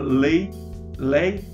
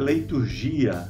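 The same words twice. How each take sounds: First: The g is hard, as in gato. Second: The g is soft, as in gelo. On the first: The speaker calls it right. "sempre tem o som de G como em gato" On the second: The speaker calls it wrong. "não é leiturgia ... nunca tem o som de J como em gelo"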